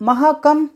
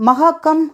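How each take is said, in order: The two takes are said the same way.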